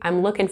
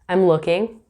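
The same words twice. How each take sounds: First: The final G sound of looking is dropped. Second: The final G sound of looking is pronounced. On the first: "Or without the G" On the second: "we will keep the G at the end of looking"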